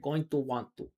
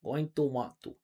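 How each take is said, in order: First: Each word is said fully and separately. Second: Each word is said fully and separately.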